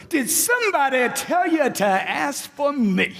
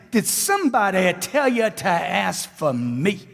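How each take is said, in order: First: Higher, slower, punchy and full of energy; enthusiastic. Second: Slow, listless and without enthusiasm; flat delivery. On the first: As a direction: sell it with real enthusiasm. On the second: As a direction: say it as if you don't care. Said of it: "Where's your enthusiasm at?". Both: Shown as a demonstration.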